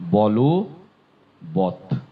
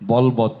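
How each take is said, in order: First: The first part has a final o vowel. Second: The first part ends without a vowel. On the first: The speaker calls it right. "উচ্চারণ হবে বলো বত" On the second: The speaker calls it wrong. "উচ্চারণটি বলবৎ নয়"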